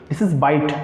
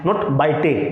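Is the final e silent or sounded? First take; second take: silent; sounded. First: The final e is silent. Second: The final e is sounded. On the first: The speaker calls it right. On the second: The speaker calls it wrong.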